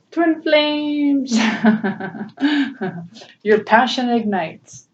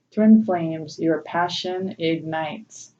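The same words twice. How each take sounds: First: Excited reading. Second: Said in the usual way. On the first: Real, not acted. Reading the card, laughing.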